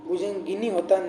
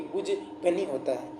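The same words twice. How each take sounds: First: भुजंगिनी with a "gi" syllable, bhu-jan-gi-ni; correct form shown. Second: भुजगनी slow and soft, without nasal or "gi"; wrong form shown. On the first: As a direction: sound the गि clearly in भुजंगिनी. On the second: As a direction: say "bhuj-gani" for भुजगनी, volume dropped. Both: Shown as a demonstration. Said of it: "न कि".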